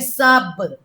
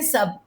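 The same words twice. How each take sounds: First: The final b rebounds with an echoing bounce. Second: The final b is plain, without a rebound. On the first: "अरबी में सब" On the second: "हम कहते हैं सब"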